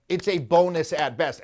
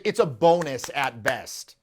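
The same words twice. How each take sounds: First: "a" said as a stressed "ay" in "a bonus"; deliberate repeat, leaning on "a" as "ay"; emphatic repeat. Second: Said in the usual way. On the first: Real, not acted. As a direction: restate it firmly, giving "a" its full "ay" sound.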